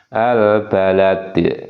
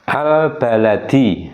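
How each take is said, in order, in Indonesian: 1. Kata ini berakhir dengan konsonan mati. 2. Kata ini berakhir dengan vokal pendek. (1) "ketika wakaf atau berhenti, maka dalnya ini berubah menjadi dal sukun" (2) "Yang terakhir itu adalah dal kasroh"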